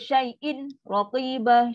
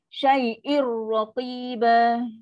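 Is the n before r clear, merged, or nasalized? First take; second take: clear; merged. First: The n is pronounced clearly and separately before r. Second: The n merges fully into r without nasal sound. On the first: The speaker calls it wrong. "Syai'in tu dia di izhar" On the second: The speaker calls it right. "nun dia dah masuk one hundred percent"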